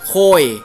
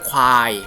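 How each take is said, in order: First: It is said with a Phu Thai accent. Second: It is said with a Central Thai accent. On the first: "ภาษาภูไทยก็จะเรียกโคยโคยนะครับ" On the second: "ภาษากลางเรียกควาย"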